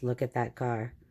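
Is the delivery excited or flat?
flat. It is read flatly, without emotion. The speaker calls it wrong. "not just"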